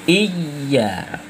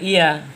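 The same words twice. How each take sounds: First: The y sound is held long and doubled. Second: The y sound is short and single. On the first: It means 'You alone'. The speaker calls it right. "dikala iya al hamzah kasrah i, kemudian tasdid dengan huruf ya" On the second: It takes on another meaning. The speaker calls it wrong. "jangan iya ... itu bermakna lain, tidak sah Fatihahnya"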